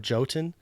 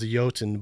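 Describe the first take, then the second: First: The word begins with a J sound. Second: The word begins with a Y sound. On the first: This is the form that keeps searches from going astray. The speaker calls it wrong. "I've been purposely saying it wrong" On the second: This is the name's real pronunciation. The speaker calls it right. "It's actually pronounced Jotun, but I, I don't want p- people to search for Y O T U N"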